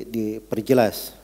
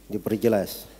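Both takes have the same delivery.

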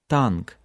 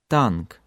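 First: The t is released with little air. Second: The t is released with little air.

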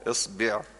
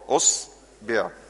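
First: The word begins with an i vowel. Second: The word begins with a u vowel. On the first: "اكسر الهمزة" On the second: "انزل كده على الضمة برضه"

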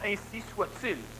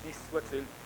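First: It is said firmly, like a command. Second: It is said meekly, like a submissive hope. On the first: It is an order that it be so. The speaker calls it right. "c'est un ordre" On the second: It is only a hope that it will be so. The speaker calls it wrong. "l'humain le dit en soumission"

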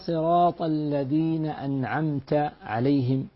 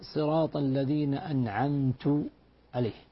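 First: The word an'amt ends in a short 'a' vowel. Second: The word an'amt ends in a short 'u' vowel. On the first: God is addressed as the one who bestowed favor. The speaker calls it right. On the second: The speaker claims to have bestowed the favor. The speaker calls it wrong.

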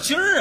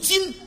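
First: The syllable ends with an r-coloured sound. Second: The syllable ends without an r-coloured sound. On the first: The speaker calls it wrong. "什么叫今儿啊" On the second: The speaker calls it right. "正字读今"

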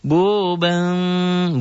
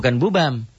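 First: The M sound is muffled and faint. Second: The M sound is full and clear. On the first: The speaker calls it right. "bunyi M, tapi ada samar" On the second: The speaker calls it wrong.

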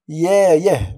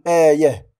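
First: The word begins with a y sound. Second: The word begins with a glottal stop. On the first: The speaker calls it right. "سنقول يايه" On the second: The speaker calls it wrong. "ولا نقول آيه"

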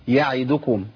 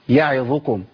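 The two takes are said the same way.

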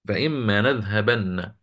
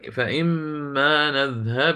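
First: The word ends with a doubled n sound. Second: The word ends without any n sound. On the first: The reading continues past the word. "لكن أنا عندي نون مشددة" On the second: The reader stops on the word. "لذلك عندما نقف عليها ستصبح"

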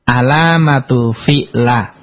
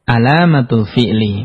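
First: The final word ends in an a vowel. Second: The final word ends in an i vowel. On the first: The speaker calls it wrong. "enggak boleh dibaca" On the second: The speaker calls it right. "Harus dibaca"

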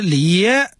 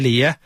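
First: The syllable 爷 is fully stressed. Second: The syllable 爷 is light and unstressed. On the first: The speaker is not a Beijing local. "他是把爷字中毒" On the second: The speaker is a Beijing local. "这是轻读"

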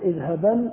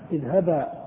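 First: The word ends with an n sound. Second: The word ends with a long a. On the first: The speaker continues without stopping. "في الوصل تنطق نونا" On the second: The speaker stops on this word. "وإذا وقفت تقول"

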